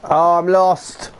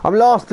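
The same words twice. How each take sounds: First: Slow, dragged-out lament at being lost; slow groan. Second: Much higher and louder, exasperated wail; exasperated cry. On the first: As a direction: groan it out slowly. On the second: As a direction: throw it up high in frustration. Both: Real, not acted. Lost in game, frustrated.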